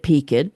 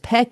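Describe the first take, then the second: First: It is said with a Southern pronunciation. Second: It is said with the standard pronunciation. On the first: "Being a Southern family, we pronounced it peaked" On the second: "is the proper pronunciation"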